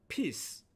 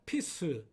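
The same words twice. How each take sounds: First: The word ends cleanly on the final consonant. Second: An extra vowel sound is added after the final consonant. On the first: The speaker calls it right. "로 발음합니다" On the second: The speaker calls it wrong. "이렇게 발음하는 것이 아니라"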